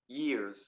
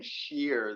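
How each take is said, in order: First: The word begins with a y sound. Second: The word begins with a sh sound. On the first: The speaker calls it right. "Just start with the open mouth. E E. Start with an E sound" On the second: The speaker calls it wrong. "you're putting like an S H sound at the beginning. You're like saying shears"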